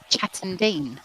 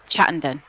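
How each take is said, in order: First: The last syllable has a long ee vowel. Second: The last syllable has a short e vowel. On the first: "call it Chatton Dean" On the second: "So Den"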